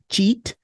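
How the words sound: The word starts with a ch sound. "pronounced more like a ch or ch"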